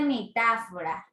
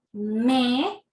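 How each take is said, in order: First: Said in the usual way. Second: Metáfora broken into me, ta, fo, ra with long gaps; syllable by syllable. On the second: Shown as a demonstration. Teacher showing pupils the voice strokes, metáfora syllable by syllable. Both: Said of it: "¿cuántos golpes de voz".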